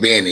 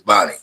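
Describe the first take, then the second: First: The first vowel sounds like 'eh'. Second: The first vowel sounds like 'ah'. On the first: The speaker calls it wrong. "We don't say Benny" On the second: The speaker calls it right. "it's Bonnie"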